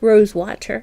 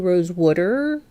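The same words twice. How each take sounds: First: It is said in a Canadian accent. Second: It is said in a Jersey accent.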